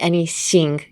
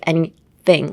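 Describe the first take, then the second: First: The tongue stays inside the mouth, sounding 'sh'. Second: The tongue touches the teeth for a 'th' sound. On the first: The speaker calls it wrong. "your tongue is still uh, in your mouth" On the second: The speaker calls it right. "it's actually like anything, like bite onto your tongue"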